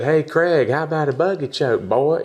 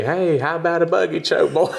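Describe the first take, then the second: First: Put-on country accent taunt. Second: Higher, hammed-up Southern country accent; country accent taunt. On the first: Taunting Craig Jones online, teasing country accent. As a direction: taunt him in a country accent, a bit higher. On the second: Fans quoting his taunt back, hammed-up country accent. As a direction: quote the fans' favourite line in a country accent. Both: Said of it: "They love my country accent".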